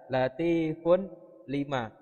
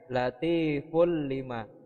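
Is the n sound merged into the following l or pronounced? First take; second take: pronounced; merged. First: The n is sounded before the l. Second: The n merges fully into a doubled l.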